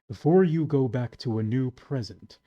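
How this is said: It is read in a put-on character voice.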